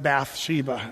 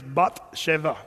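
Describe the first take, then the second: First: The name is said the familiar English way. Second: The name is said in a Hebrew-style pronunciation. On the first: The speaker calls it wrong. "if you're a real Hebrew, you don't get to pronounce it Bathsheba" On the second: The speaker calls it right. "Her name is Bathsheba. That's how you'd say it"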